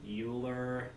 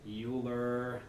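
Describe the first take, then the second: The two takes are said the same way.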